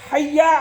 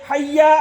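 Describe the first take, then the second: The two takes are said the same way.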